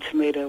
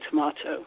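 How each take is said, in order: First: It is said the American way. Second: It is said the British way.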